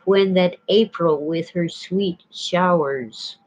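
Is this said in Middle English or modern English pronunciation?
modern English. It is pronounced the modern English way.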